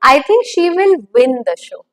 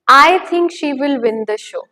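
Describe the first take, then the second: First: The stress falls on the word win. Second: The stress falls on the word I. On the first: She will win rather than lose. "What the outcome would be" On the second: This is the speaker's own opinion. "What am I hinting at through that word stress on I?"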